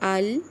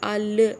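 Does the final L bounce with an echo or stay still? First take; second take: still; bouncing. First: The final L is held without any bounce. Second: The final L ends with a bouncing echo. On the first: The speaker calls it right. "देखिए लाम की आवाज़ बिल्कुल पलट नहीं रही" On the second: The speaker calls it wrong. "अल ऐसे नहीं करना"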